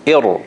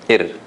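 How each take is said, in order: First: Ir with a heavy, full r; strong ra. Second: Ir with a short, light r; common mistake, soft ra. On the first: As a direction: correct it, ir with a strong ra. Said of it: "it is supposed to be". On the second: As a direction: show ir the easy way, r thin. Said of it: "It's probably easier to say". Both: Shown as a demonstration.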